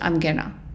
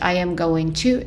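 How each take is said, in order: First: The words are contracted and reduced. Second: Every word is said in full.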